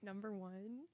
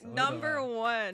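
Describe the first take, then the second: First: It is said tentatively, without force. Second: It is said boldly, with force.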